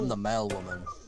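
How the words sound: The voice sounds deep and masculine.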